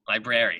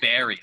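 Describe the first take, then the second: First: The first R is clearly pronounced. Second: The first R is dropped. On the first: The speaker calls it right. "See, that's the correct way to say it exactly" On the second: The speaker calls it wrong. "They ignore the R"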